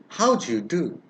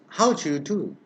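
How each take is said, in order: First: The d and y merge into a j sound. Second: The same.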